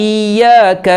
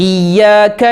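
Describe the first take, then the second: No difference in how they are said.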